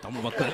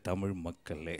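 First: The words are spoken very fast and rushed. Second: The words are spoken slowly and drawn out. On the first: "அதுக்காக இவ்வளோ வேகமா பேசுவ?" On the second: "கொஞ்சம் வேகமா பேசு கண்ணு"

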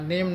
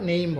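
First: The vowel is a plain short e sound. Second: The vowel glides from e to i. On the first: The speaker calls it wrong. "নেম না বলে" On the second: The speaker calls it right. "নেইম বলবো"

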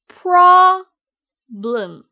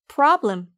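First: It is said slowly and loudly, exaggerated. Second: It is said casually at a normal pace. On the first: "과장해서 여러 번 연습해 보세요. 이번에도 손동작과 함께요" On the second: "평상시 말하는 것처럼 편하게 말하면 돼요. ... 이렇게요"

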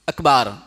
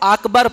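First: The second vowel is drawn out long. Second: The second vowel is short. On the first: The speaker calls it wrong. "या अकबार पढ़ा" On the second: The speaker calls it right. "अकबर को"

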